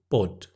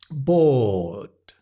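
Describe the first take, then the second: First: The vowel is short and clipped. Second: The vowel is long and stretched out. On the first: The speaker calls it wrong. "a lot of students might say bod" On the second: The speaker calls it right. "You have to stretch the vowel and exaggerate it"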